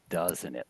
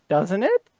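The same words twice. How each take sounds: First: It sounds solid, like a firm statement. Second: It sounds like a tentative, genuine question. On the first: The listener is told how it feels. The speaker calls it right. "Like it's solid" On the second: The listener is really being asked. The speaker calls it wrong. "you're not saying"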